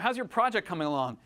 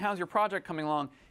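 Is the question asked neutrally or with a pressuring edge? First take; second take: pressuring; neutral. First: It is asked with a pointed, pressuring edge. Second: It is asked in a plain, neutral way. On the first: The answer had better be good. "He's got a little spin on it, a little bit of English" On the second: It is a simple request for a status update. "he's not saying"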